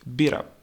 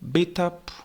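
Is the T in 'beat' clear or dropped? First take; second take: dropped; clear. First: The T is dropped, linking into up. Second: The T in beat is clearly pronounced. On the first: "we hear beat up" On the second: "instead of beat up"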